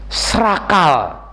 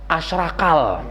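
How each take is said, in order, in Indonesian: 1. Kata asrakal diucapkan dalam bentuk singkat. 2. Kata asrakal diucapkan dalam bentuk lengkap.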